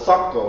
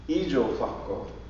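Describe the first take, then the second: First: The word is said with two syllables. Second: The word is said with four syllables. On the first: This is the form used today. "We call it" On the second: This is the oldest form. "But even older than that"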